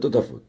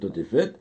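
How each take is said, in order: First: The last two vowels sound like a and o. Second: The last two vowels sound like e and e. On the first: This is a reading of the spelling with a vav. "Et une fois avec un vav, le totafot" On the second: This is a reading of the spelling without a vav. "Donc on pourrait lire le totéfet"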